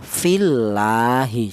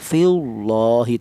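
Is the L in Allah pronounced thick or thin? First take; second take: thin; thick. First: The L in Allah sounds thin and light. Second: The L in Allah sounds thick and heavy. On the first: The speaker calls it right. "Cara bacanya tarqiq tipis ya" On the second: The speaker calls it wrong. "Tidak boleh dibaca tebal"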